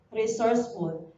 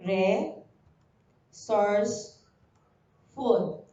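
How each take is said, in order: First: Said in the usual way. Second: Slow, split into syllables re-source-ful. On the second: Shown as a demonstration. Teacher modeling syllables for pupils, very slow. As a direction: break "Re-source-ful" into three slow beats. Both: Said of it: "Say the word by syllable".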